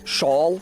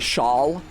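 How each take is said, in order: First: The vowel is kept distinct, New England style. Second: The vowel is merged, general American style. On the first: "most American English speakers don't say" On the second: "They say shawl"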